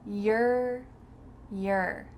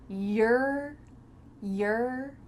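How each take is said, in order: No difference in how they are said.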